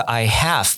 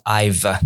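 First: I HAVE as two separate words; full form. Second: I'VE as one syllable, no h; contracted form. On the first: Teacher contrasting with the contraction, full "I have". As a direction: sound the h in "have". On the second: Teacher showing what it turns into, contracted "I've". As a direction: squeeze "I have" into "I've". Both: Shown as a demonstration. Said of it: "变成了".

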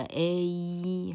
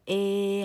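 First: A drawn out, gliding from "eh" into "ee"; 双母音示范. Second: A held as a pure "eh", before any glide; 拆音示范. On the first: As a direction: slowly slide A through both of its vowels. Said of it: "它音程显然的比别人长". (慢慢拉长A，从“欸”滑到“衣”) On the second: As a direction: stretch the first half of A, no "ee" ending. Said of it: "所以叫A". (把A的前半音“欸”拉长，不滑到E) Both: Shown as a demonstration.

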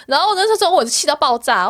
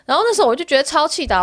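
First: Angry. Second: Still angry. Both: Real, not acted.

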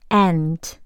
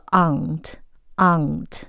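First: Aunt said like ant, with a flat a; aunt the American way, like the insect; American pronunciation. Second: Aunt said "ahnt" with a long open a; aunt the British way, slowly; British pronunciation. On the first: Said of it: "美式". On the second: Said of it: "但是英式呢". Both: Shown as a demonstration.

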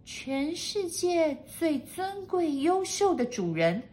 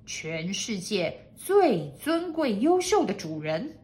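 First: High, slow maid's repetition; high maid voice, reciting slowly; echoing maid. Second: Slow lordly proclamation; slow, pompous master's voice. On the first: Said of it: "跟着念了一次". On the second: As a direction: proclaim your title slowly and grandly. Master dictates his title. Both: A narrator's reading.

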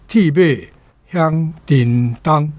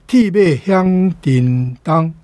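The two takes are said the same way.

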